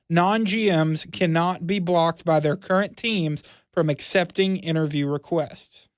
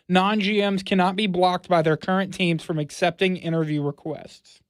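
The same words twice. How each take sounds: First: It is read at a noticeably slower pace. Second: It is read at a normal, quicker pace.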